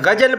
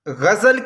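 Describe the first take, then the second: First: The middle consonant is a j sound. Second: The middle consonant is a buzzing z sound. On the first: The speaker calls it wrong. "हमारे हिंदी बोलने वाले इसे ... ग़जल पढ़ते हैं" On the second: The speaker calls it right. "ग़ज़ल की बजाय"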